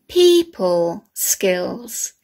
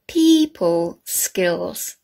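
Both takes have the same delivery.

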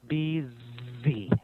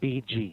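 First: The second consonant is a 'z' sound. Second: The second consonant is a 'j' sound. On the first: The speaker calls it right. "It should be BG, BZ. Okay, this one is Z, not J" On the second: The speaker calls it wrong. "You're saying BG, BG"

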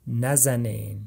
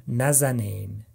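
Both takes have the same delivery.

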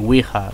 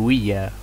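First: The word is pronounced the Spanish way. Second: The word is pronounced the English way. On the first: "which is it's Spanish pronunciation" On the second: "I say Ouija"

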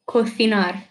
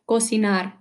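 First: It is said with a Spain Spanish accent. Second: It is said with a Latin American accent.

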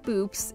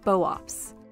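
First: It is said as one syllable. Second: It is said as two syllables, bo-ops. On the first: The speaker calls it wrong. "Instead of boops" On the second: The speaker calls it right. "it's pronounced boops, with the first part similar to the bow in bovine, and the second part like ops in optics"

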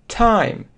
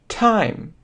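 No difference in how they are said.

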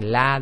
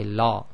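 First: The l sound is light and thin. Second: The l sound is heavy and thick. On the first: The speaker calls it right. "Instead of saying la" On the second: The speaker calls it wrong. "they say la"

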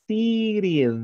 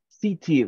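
First: The t sounds like a quick r. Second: The t is pronounced as a crisp t. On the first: "remember the letter T sometimes sounds like an R. City. That's correct" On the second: "if you make the pronunciation of the T, that is like very British. City. That is British"

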